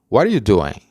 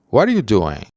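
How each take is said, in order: First: The word are is dropped completely. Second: The word are is dropped completely.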